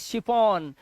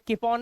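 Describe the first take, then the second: First: The word begins with a sh sound. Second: The word begins with a k sound. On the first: The speaker calls it right. "इसे पढ़ेंगे शिफॉन" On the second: The speaker calls it wrong. "इसे चिफॉन या किफॉन नहीं"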